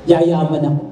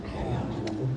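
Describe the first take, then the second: First: Declaring. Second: Unvoiced timid whisper; a hushed, faithless mutter; doubtful whisper. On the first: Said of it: "Kaya sabihin mo". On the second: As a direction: whisper it as if unsure. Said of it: "Kasi baka mamaya hindi nangyari". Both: Shown as a demonstration.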